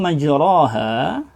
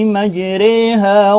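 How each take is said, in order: First: The vowel after r is a plain open 'a'. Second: The vowel after r leans strongly toward 'e'. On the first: "Lafadznya tertulis di situ majraha" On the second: "dibaca dengan imalatul kubra, yaitu dengan dibaca miringnya seperti bunyi embek"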